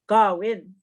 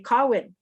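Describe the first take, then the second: First: The word begins with a voiced g sound. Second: The word begins with a voiceless k sound. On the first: Other speakers say it this way. "they use the g" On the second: This is how the speaker usually says it. "A lot of the times I say"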